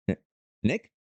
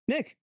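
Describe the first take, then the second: First: Questioning call. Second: Very high-pitched call; searching call. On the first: Player waking in a dank cave, questioning call for Nick. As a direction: call out as a question, unsure anyone is there. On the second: Player gone to find Nick in the cave, high searching call. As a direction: call out high for someone missing. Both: Acted.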